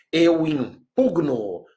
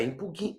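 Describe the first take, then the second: First: "impugno" slow, "pug-no" with no extra i; careful "impugno", no vowel after g; correct pronunciation. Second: "impugno" said "impuguino" with an extra i, softly; mock the wrong "impugno" with an inserted vowel; quiet mock wrong "impugno"; wrong pronunciation. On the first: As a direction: say "Eu impugno" slowly, g and n joined. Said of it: "não é impugno". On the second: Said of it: "bem baixinho". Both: Shown as a demonstration.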